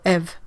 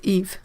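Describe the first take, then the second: First: The name is said with a French pronunciation. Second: The name is said with an English pronunciation. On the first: "the French pronunciation" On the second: "in English it's Eve"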